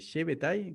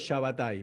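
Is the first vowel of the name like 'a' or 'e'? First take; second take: e; a. First: The first vowel sounds like 'e'. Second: The first vowel sounds like 'a'. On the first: This is the other person's pronunciation. "vos decís eh, Shebetai" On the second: This is the speaker's own pronunciation. "yo lo pronuncio Shabbatai"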